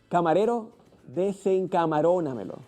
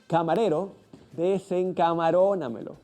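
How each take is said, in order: The two takes are said the same way.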